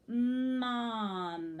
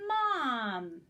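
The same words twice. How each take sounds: First: The word is drawn out slowly and smoothly. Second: The word is said at normal speed. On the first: The reader is rehearsing the word. "Kind of said it slowly, but I didn't say it choppy" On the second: The reader is performing the word. "we wouldn't scoop it anymore"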